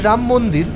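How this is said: The first word ends on a bare consonant. This is how Bengali speakers say it. "আমরা বলছি রাম মন্দির"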